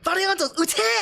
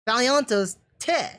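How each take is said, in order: First: It is said with huge, forceful emphasis. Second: It is said plainly, without special emphasis.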